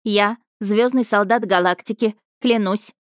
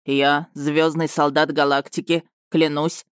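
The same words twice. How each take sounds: First: Higher, brisk dictation; dictating the oath. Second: Slow, solemn repeat. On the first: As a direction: lead the oath line by line. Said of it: "Повторяйте за мной". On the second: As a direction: swear it gravely and slowly. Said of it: "торжественно повторил лётчик". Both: Acted.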